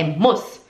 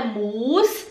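First: Quick, low "muss"; short U in "muss"; correct short vowel. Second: Long U in "muss", held and rising; wrong long vowel. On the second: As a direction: drag "muss" out to "muus". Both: Shown as a demonstration. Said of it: "é rápido".

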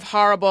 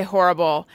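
First: "horrible" with an "ah" first vowel; New York pronunciation. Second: "horrible" with an "or" first vowel; own pronunciation. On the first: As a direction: say "horrible" like "HAHR-ible". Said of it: "Instead of horrible". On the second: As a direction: say "horrible" like "HOR-ible". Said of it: "I say horrible". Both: Shown as a demonstration.

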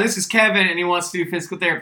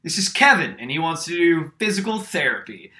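First: Higher, louder, fast and sure; with confidence. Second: Loud, higher, sure of himself though wrong; confident announcing. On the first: Retelling the classmate's confident wrong introduction, quick and sure. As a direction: rattle it off with full confidence. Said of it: "Like, with confidence, said". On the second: Classmate introducing [name] as Kevin, loudly confident. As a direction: present the wrong name with total confidence. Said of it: "Colin stands up and goes". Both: Retold or imitated.

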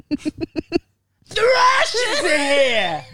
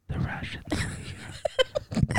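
First: High, very drawn-out scream; Italian Bronx woman. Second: Slow, very close whisper. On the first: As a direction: blast it out as a hammed-up Bronx screech. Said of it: "I could do that voice". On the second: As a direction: breathe it slowly right by the sleeper's ear. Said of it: "and she whispered". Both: Acted.

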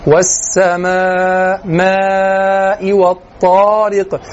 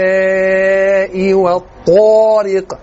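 First: والسماء and والطارق very slowly with a full open alif and a heavy ط; correct recitation. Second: والسماء والطارق slowly with imala in السماء and rounding in الطارق; wrong Egyptian imala. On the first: Teacher giving students the correct recitation. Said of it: "والصحيح كذا". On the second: Teacher showing students the faulty Egyptian recitation. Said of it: "لما بيحب يرقق بيميل للإمالة". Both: Shown as a demonstration.

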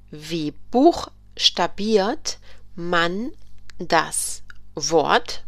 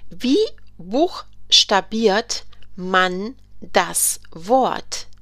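First: Very slow repeat in two parts. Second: Very slow, careful question; slow model question. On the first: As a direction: repeat it slowly in chunks. German teacher repeats the question. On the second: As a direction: stretch every word. German teacher models a question. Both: Shown as a demonstration.

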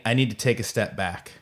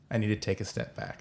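First: Said in the usual way. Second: Much softer, as if to yourself; quiet admission. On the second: Real, not acted. Repeats admission to himself, much softer.

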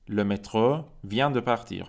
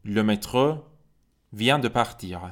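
First: "Le métro vient de partir" said slowly, each word separate; slow, careful French for learners; slow model reading. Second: Said in the usual way. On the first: Shown as a demonstration. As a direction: drill it slowly, stressing vient.

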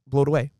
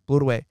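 No difference in how they are said.

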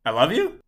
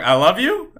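First: Said in the usual way. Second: "I love you" with a high rising question tune; unsure, questioning "I love you" up high. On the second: Retold or imitated. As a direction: ask "I love you" tentatively, pitch climbing on "you". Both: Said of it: "I said it like a question".

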